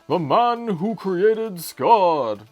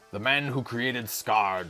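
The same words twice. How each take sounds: First: It is said in an old-time announcer voice. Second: It is said in his ordinary voice.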